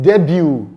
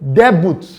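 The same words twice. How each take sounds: First: The T sound is silent. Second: The T sound is pronounced. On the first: The speaker calls it right. "the th sound is not pronounced" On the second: The speaker calls it wrong. "Someone will say debut. No"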